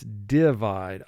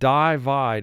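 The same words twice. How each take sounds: First: The first vowel sounds like the vowel in 'sit'. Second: The first vowel sounds like the word 'eye'. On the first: The speaker calls it right. "I is representing its short sound in this word" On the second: The speaker calls it wrong. "vowel group two says the I will represent its long sound. But the word is not divide"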